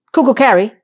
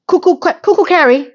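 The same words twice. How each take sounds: First: Said in the usual way. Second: High, teasing singsong nickname; mocking singsong. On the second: Real, not acted. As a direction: taunt her name playfully.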